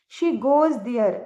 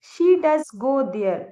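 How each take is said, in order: First: Said in the usual way. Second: "does" stressed, said slowly; slow and insistent on "does"; emphatic does. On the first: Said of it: "normally हम बोलते हैं". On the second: Shown as a demonstration. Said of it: "हमें जोर डालना हो अपनी बात पे". ("does" पर ज़ोर, धीमे और साफ़)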